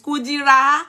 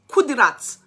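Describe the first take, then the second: First: The name is drawn out and dragged. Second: The name is said short and crisp. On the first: It makes you dislike your own name. The speaker calls it wrong. "if Ijebu people drag on for you" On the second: It sounds lovely and proper. The speaker calls it right. "the way they will pronounce it, you will love your name"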